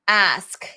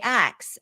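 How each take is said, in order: First: The word ends with an 'sk' sound. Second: The word ends with a 'ks' sound.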